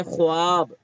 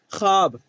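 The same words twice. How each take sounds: First: "ख्वाब" with the w sounded, khwaab; spelling pronunciation. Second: "ख्वाब" pronounced khaab, without the w; teacher's read form of "ख्वाब": khaab; silent waw. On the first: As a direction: sound the silent waw in "ख्वाब", khu-aab. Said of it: "ऐसे लिखा जाता है". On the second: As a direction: drop the w from "ख्वाब", long aa straight after kh. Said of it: "लेकिन क्या पढ़ा जाता है?". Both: Shown as a demonstration.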